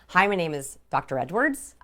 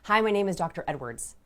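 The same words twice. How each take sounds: First: The voice rises at the end like a question. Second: The voice falls at the end like a statement. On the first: The speaker calls it wrong. "they asked their names" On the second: The speaker calls it right. "going on the downward inflection"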